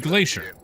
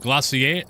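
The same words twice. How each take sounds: First: It is said with an American pronunciation. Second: It is said with a British pronunciation. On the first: "States, you say glacier" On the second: "U K, it's gla- what is it?"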